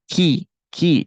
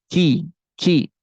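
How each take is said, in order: The two takes are said the same way.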